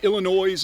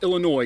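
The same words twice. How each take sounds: First: The final S sound is pronounced. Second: The final S sound is silent. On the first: The speaker calls it wrong. "because I pronounced the S" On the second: The speaker calls it right. "the S is silent"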